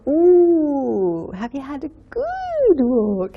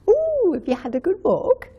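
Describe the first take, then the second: First: The vowels are drawn out and exaggerated. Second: The vowels are said plainly, not stretched. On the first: It is spoken to a baby. "But we don't go, ... like that" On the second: It is spoken to a pet. "We don't emphasize the vowel sounds"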